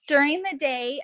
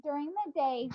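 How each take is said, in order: First: Louder, projected like a teacher. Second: Said in the usual way. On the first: Real, not acted. Mother answering a team question near her baby, projected teacher voice. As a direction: project it as if to a classroom. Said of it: "I put my teacher voice on". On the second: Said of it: "I'm scaring the baby".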